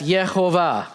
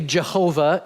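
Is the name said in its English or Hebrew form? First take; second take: Hebrew; English. First: The name is said in its Hebrew form. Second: The name is said in its English form. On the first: "that's Yehovah in Hebrew" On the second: "we would say Jehovah in English"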